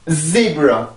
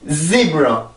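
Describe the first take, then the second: Both takes have the same delivery.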